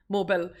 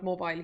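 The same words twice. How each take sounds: First: "mobile" as MO-bull, short last syllable; Joey's pronunciation. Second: Said in the usual way. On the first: Retold or imitated. Host showing how a colleague says it, "mobile" as MO-bull. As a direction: rhyme the end of "mobile" with bull. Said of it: "he calls it mobile". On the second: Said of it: "I call it mobile".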